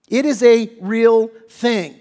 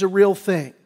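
First: "It is a real thing" slow and louder; emphatic repeat. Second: Said in the usual way. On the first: Shown as a demonstration. Preacher insisting to the congregation, slow and emphatic. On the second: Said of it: "let's just take note".

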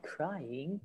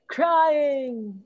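First: "crying" said very softly, as in weeping; weepy crying. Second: "crying" called out high, drawn out. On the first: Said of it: "A different meaning of the word crying". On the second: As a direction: call "crying" out like a high cry. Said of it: "Cry also means to scream loudly". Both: Shown as a demonstration.

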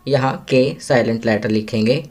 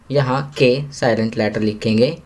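The two takes are said the same way.

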